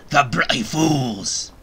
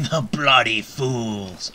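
First: Slow, louder growl of a villainous pirate; hammed-up menace; slow mock-menacing pirate snarl; mock threatening pirate. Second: Laughing retry. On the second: Acted. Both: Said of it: "I be very threatening".

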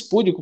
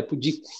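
First: Púdico stressed on the first syllable, PÚ-di-co; púdico, wrongly stressed on PÚ. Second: Pudico stressed on the second syllable, pu-DI-co; pudico, correctly stressed on DI; right stress. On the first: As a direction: say púdico with the accent on PÚ. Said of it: "mas na verdade não é". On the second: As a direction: say pudico with the accent on DI. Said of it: "o I é tônico". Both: Shown as a demonstration.

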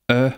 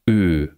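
First: "Ö" short and open; lax Ö. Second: "Ö" long and close; tense Ö. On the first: Lecturer continues the vowel pairs, lax Ö. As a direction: say "Ö" brief, as in Hölle. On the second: Lecturer continues the vowel pairs, tense Ö. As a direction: hold "Ö" tense, as in Höhle. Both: Shown as a demonstration. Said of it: "gepaart mit gespannt und ungespannt".

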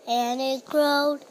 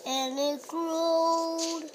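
First: Loud. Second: Drawn out slow and higher; slow stretched growing. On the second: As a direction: stretch the word growed long and slow. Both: Acted. Story building repetition.

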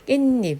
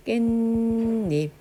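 First: Said in the usual way. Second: 깻잎 as 깬닙, first syllable held very long; drawn-out pronunciation. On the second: Shown as a demonstration. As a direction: hold the ㄴ in 깻잎 before 닙. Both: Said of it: "시옷이 들어온 거지".

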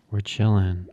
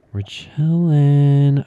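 First: Said in the usual way. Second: Slow, loud, stretched chilling; loud drawn-out chilling. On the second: Acted. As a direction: drag it out loudly, mock relaxed.

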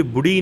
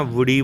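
First: ਬੁੜੀ with an opening b; wrong B sound. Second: ਵੁੜੀ with v and short u; correct V sound. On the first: Teacher shows learners the mistake, ਬੁੜੀ with b. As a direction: say ਬੁੜੀ, lips closed on a b. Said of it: "ਬੁੜੀ ਨਹੀਂ ਕਹਿਣਾ". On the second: Teacher corrects learners, ਵੁੜੀ with v and short u. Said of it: "ਵੁੜੀ ਬੋਲਣਾ, ਵਾਵੇ ਔਂਕੜ". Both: Shown as a demonstration.

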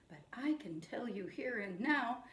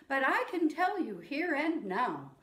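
First: Hushed whispered echo line; whispered call-back for the kids. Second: Said in the usual way. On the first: Shown as a demonstration. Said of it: "you say it back to me". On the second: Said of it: "I'll say a line".

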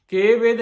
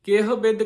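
First: ਕੇ ਬਿਦ with no h, a bit higher and louder; mock the common slip, h dropped; ਗਲਤ ਉਚਾਰਨ ਕੇ ਬਿਦ; wrong pronunciation. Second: ਕਿਹ with the h sounded before ਬਿਦ; ਕਿਹ ਵਿੱਚ ਹਾਹਾ ਬੋਲੋ; correct pronunciation. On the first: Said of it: "ਕੇ ਬਿਦ ਨਹੀਂ ਕਹਿਣਾ". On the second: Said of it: "ਕਿਹ ਬਿਦ ਕਹਿਣਾ ਆ". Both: Shown as a demonstration.

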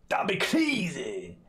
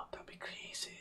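First: High, long drawn-out exclamation; exclaimed in mock amazement. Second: Breathy, hushed whisper; mock-awed whisper. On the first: Streamer marvelling aloud at all good beans, drawn-out amazement. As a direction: stretch it out slowly, pitched high. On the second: Streamer marvelling that beans could be all good, whispering. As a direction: whisper it after a gasp. Same line whispered, then called out.

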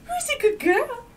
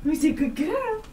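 First: Very high squeaky praise; squeaky praising a dog. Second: Higher sing-song praise; squeaky praising a dog. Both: Real, not acted.

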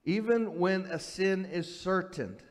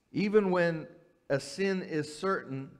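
Both takes have the same delivery.

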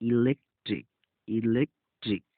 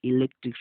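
First: ইলেকট্রিক in parts, opening on a short i; short initial ই. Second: Said in the usual way. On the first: Shown as a demonstration. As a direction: break ইলেকট্রিক before the last syllable, short ই first. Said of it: "হ্রস্ব এর মতো করে উচ্চারিত". (ইলেকট্রিক ভেঙে, হ্রস্ব ই দিয়ে শুরু) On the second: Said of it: "শব্দের অর্থ হচ্ছে".

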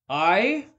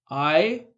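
First: Indignant cry. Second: Short, loud indignant "I?"; the spirit cries out, affronted; indignant cry. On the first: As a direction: cry out in disbelief. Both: Acted. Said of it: "cried the spirit".

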